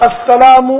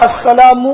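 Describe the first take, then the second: The two takes are said the same way.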